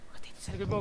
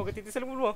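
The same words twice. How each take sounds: First: Breathy whisper close to the mic. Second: Said in the usual way. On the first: Real, not acted. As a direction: whisper it so the monster won't hear. Hiding from monster, first take. (pabulong na pagsasalita)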